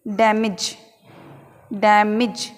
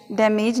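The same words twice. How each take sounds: First: डैमेज ending in short "mij"; correct pronunciation. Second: डैमेज ending in "mayj"; long second vowel in डैमेज; wrong pronunciation. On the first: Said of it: "हम इसे किस प्रकार बोलेंगे". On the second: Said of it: "डैमेज नहीं बोलना है हमें". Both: Shown as a demonstration.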